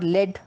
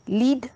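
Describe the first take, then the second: First: The vowel is a short 'e' sound. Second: The vowel is a long 'ee' sound. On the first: "लीड और लेड दोनों हो गया" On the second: "लीड और लेड दोनों हो गया"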